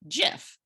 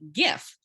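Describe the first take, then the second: First: The word begins with a soft J sound. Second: The word begins with a hard G sound. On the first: It follows the usual spelling rule. "that would be a soft G, a J, and it would be GIF" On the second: It keeps the sound of the original word. "because graphic has that hard G"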